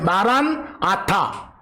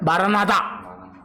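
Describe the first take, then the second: First: The two words are said separately and slowly. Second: The words are run together quickly as one.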